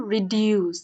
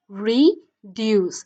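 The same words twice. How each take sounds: First: Said in the usual way. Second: "reduce" split into two slow beats, re-duce; slow, louder "reduce" in two separate parts; syllable by syllable. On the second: Shown as a demonstration. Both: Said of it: "দুইটা syllable এখানের মধ্যে আছে".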